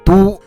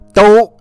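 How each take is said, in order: First: The syllable sounds like 'doo' with a rounded vowel. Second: The syllable sounds like 'doh' with a glide. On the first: It means capital city or metropolitan city. "When used as a noun, this character is pronounced as a du" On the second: It means both, all, even or already. "When it is used as an adverb, this character is pronounced as dou"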